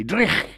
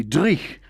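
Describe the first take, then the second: First: "Dreich." higher, the ch rasped hard in the throat; Scottish dreich. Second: "dreich" with a throaty ch at the end, like loch; Scottish word dreich. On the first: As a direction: hit "Dreich." with a guttural Scottish ch. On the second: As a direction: say "dreich" the Scottish way, rasping the final ch. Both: Shown as a demonstration. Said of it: "is a great Scottish word".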